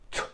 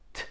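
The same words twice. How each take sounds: First: The T is forceful, with a spitting burst. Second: The T is soft, with relaxed release. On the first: The speaker calls it wrong. "otherwise it will be something like t, ... and you will spit in someone's face" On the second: The speaker calls it right. "Your mouth should be relaxed"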